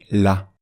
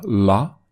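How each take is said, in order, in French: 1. Le L est léger, avec la langue plate. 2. Le L est lourd et emphatique, la langue relevée. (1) "sinon c'est" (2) "Si on met un accent, une exagération, une emphase, on va dire"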